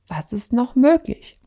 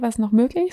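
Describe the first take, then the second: First: It is said stiffly and mechanically, like a recited line. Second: It is said loosely and casually, like natural speech. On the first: "völlig mechanisch ... nicht so wirklich authentisch ... sondern so" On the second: "halt so, ja, okay"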